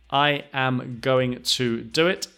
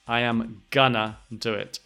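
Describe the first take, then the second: First: Going to is said in full, two words. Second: Going to is reduced to gonna. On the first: "the pronunciation of going to" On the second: "a lot of people say gonna instead of going to"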